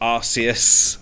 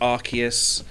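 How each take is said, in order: First: The ending sounds like 'Zeus', with an 's'. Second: The middle consonant sounds like a 'k'. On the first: This is the speaker's own preferred pronunciation. "but it's definitely Arceus" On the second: This is the official pronunciation. "I know it's meant to be pronounced Arceus"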